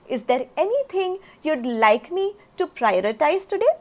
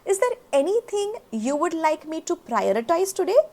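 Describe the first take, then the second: First: 'You would' is contracted to one syllable, 'you'd'. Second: 'You would' is said as two full words.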